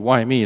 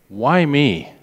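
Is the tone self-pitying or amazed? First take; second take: self-pitying; amazed. First: It sounds self-pitying and complaining. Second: It sounds amazed and grateful.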